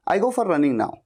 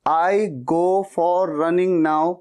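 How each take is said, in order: First: Said in the usual way. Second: Very slow, halting beginner English; slow beginner take. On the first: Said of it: "पन्द्रह दिन के बाद आप कैसे बोलेंगे". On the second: Shown as a demonstration. Beginner's first slow try at the sentence. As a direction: drag each word like a first-timer. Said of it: "पहले शुरुआत में तो शायद आप ऐसे बोलेंगे".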